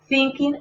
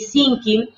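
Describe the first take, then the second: First: The word begins with the tongue between teeth. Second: The word begins with a plain s sound. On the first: The speaker calls it right. "La T H en medio de los dientes" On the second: The speaker calls it wrong. "para que no nos suene ni thinking, ni dinking, ni sinking"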